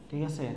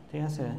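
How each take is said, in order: Both takes have the same delivery.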